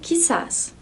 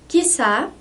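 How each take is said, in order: First: The word ends with an s sound. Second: The word ends on a vowel, with no s. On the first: "aqui o S está entre parênteses porque tanto faz" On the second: "aqui o S está entre parênteses porque tanto faz"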